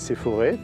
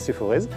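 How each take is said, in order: First: The word ends on an open vowel sound. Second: The word ends with a sounded final consonant. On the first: This is how the Loire side says it. "Si vous êtes côté ligérien" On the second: This is how the Auvergne side says it. "Si vous êtes côté auvergnat"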